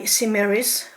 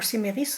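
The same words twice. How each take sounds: First: The name is pronounced the English way. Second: The name is pronounced the French way.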